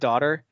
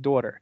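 First: The word is said with a standard American vowel. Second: The word is said with a Delco Pennsylvania vowel. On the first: "Instead of daughter" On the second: "you'll say like daughter"

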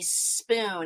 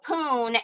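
First: The word starts with the s sound. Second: The word starts without the s sound. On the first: The speaker calls it right. "it's supposed to be spoon" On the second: The speaker calls it wrong. "you say it, you know, poon"

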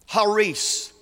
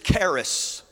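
First: The word begins with a breathy h sound. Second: The word begins with a hard k sound. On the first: This is the original Greek way of saying it. The speaker calls it right. "But actually, it's pronounced haris" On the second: This is the usual English way of saying it. The speaker calls it wrong. "That's how we pronounce it in our English language"

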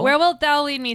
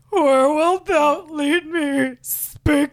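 First: The voice is at its normal pitch. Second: The voice sounds low and tearful.

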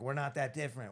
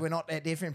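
First: It is said in the speaker's ordinary American accent. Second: It is said in a put-on British accent.

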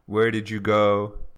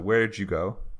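First: The word 'did' is fully pronounced. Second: The word 'did' is reduced to a short 'd' sound.

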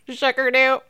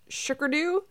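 First: It is said in a robot voice. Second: It is said in a normal voice.

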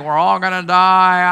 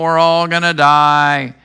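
First: It is said in his ordinary voice. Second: It is said in a gloomy Eeyore voice.

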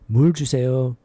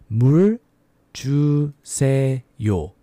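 First: It is said fast. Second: It is said slowly.

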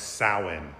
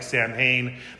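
First: It is said with its Gaelic pronunciation. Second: It is read the way the letters suggest. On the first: "in Gaelic it's pronounced Samhain" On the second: "It looks like Samhain"

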